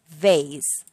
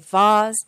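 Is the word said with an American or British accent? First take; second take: American; British. First: It is said with an American accent. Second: It is said with a British accent.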